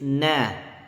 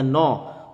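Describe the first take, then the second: First: The syllable is pronounced light and thin. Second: The syllable is pronounced heavy and thick. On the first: The speaker calls it right. "na-nya tipis" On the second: The speaker calls it wrong. "jangan terpengaruh dengan sod sehingga no"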